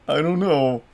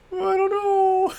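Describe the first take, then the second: First: Said in the usual way. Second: "know" stretched very high and slow; silly squeaky voice. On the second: Shown as a demonstration.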